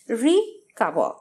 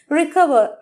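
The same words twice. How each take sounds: First: The prefix re is said apart from cover. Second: The prefix is light and joined to cover. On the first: It means to cover again. "re hyphen cover" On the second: It means to regain health or repair. "the meaning of which will be regain or repair"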